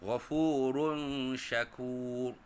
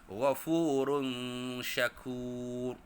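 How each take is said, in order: Both takes have the same delivery.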